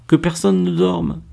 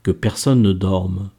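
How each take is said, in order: First: High, thrilled voice; raised pitch, full of discovery; excited exclamation. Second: Said in the usual way. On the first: A narrator's reading. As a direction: exclaim it in delighted recognition. Laure exclaims the translated title excitedly. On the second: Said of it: "et lut le ruban rose".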